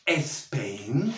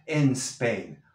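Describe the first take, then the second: First: Spain said espen with an added e; wrong espain. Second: En Spain joined, no e before Spain; linked en Spain. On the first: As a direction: show the extra e before Spain. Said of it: "No digo". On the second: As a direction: glue the n onto Spain. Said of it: "únelo con la N de en". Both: Shown as a demonstration.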